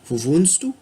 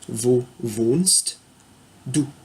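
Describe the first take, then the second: First: The phrase is said with a lively question melody. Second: The phrase is said with flat, neutral intonation.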